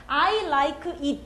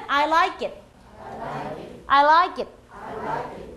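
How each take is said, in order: First: I like it slow, each word separate. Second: I like it with the k carried into it; linked sounds. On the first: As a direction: say I like it as three separate words. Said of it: "단어 하나하나만의 발음의 정확성". (단어를 하나씩 끊어서 발음) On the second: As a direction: let the k slide into it: laikit. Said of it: "그래서 소리는". (k를 it에 붙여서 발음) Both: Shown as a demonstration.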